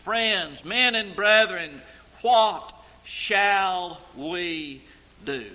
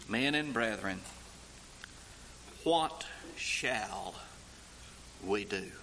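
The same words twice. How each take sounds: First: Loud, slow cry of "Men and brethren, what shall we do?"; anguished cry. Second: Low, soft plea of "Men and brethren, what shall we do?"; hushed plea. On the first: Crowd crying out to Peter, loud anguished plea. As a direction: call it out like a stricken crowd. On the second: Crowd asking Peter what to do, hushed and stricken. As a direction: murmur the question low and stricken. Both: Acted.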